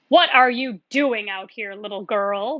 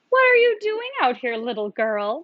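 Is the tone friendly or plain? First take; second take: plain; friendly. First: It is said in a plain, unfriendly voice. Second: It is said in a put-on friendly voice.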